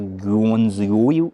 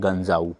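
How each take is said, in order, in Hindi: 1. नाम को अक्षर-अक्षर करके पढ़ा जाता है। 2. नाम को वैसे बोला जाता है जैसे स्थानीय लोग बोलते हैं। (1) "ये लिखा तो है" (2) "बोलते हैं इसे"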